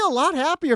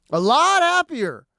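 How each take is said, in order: First: Said in the usual way. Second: Lot stressed, slowed down; slow emphatic repeat. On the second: Shown as a demonstration. Repeating it to the audience, stressing lot. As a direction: lean on lot and stretch it.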